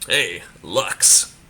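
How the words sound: It is said in a sly, smarmy tone.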